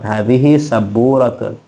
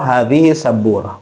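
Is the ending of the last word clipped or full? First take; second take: full; clipped. First: The last word ends with a full '-atun' ending. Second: The last word ends with a short '-ah' ending. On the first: This is the formal reading form. "Memang asalnya memang berharokat" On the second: This is the everyday conversational form. "dalam bicara biasanya disingkat saburah"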